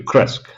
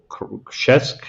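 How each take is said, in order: First: The name has a simplified, easier consonant cluster. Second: The name has the full native Polish consonant cluster. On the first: This is an acceptable easier form for non-Polish speakers. "that's hard to pronounce, so I will accept you, Kresk" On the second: This is the village's real local name. "which is called Krzesk in Polish"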